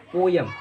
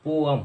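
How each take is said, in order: First: "पोयम" with a y glide; "पोयम", the common y-sound mistake; wrong pronunciation. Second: "पोअम" as po-am, without y; "पोअम" with no glide; correct pronunciation. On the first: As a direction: say "पोयम" as po-yam. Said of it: "पोयम wrong pronunciation है". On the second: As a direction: say "पोअम" in two open syllables. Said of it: "right pronunciation पोअम होती है". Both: Shown as a demonstration.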